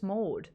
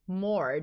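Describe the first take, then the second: First: No R sound follows the vowel. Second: An R sound follows the vowel. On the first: The speaker calls it right. "there's no R in my name. It's just Maud" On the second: The speaker calls it wrong. "they would pronounce the R in that name"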